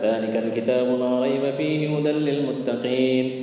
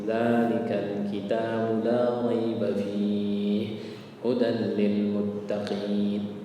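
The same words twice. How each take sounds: First: It is recited quickly without drawing out. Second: It is recited very slowly and drawn out. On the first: The speaker calls it wrong. "bukan ... enggak cepat" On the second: The speaker calls it right. "Gaya bacanya ya kira-kira kayak gitulah"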